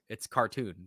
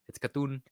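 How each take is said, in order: First: It is said in the speaker's plain accent. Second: It is said in a put-on Asian accent.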